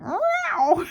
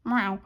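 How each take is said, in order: First: High, loud startled meow; imitated cat yowl. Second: Imitated short meow. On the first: Cat has lino ripped off, yowling meow. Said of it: "Misty went". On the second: Cat snubs Mum before walking away, curt meow. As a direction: give a curt little meow. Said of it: "and she'd go".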